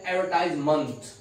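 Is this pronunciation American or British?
American. It is said with an American pronunciation. "American English में इस शब्द को बोलते हैं"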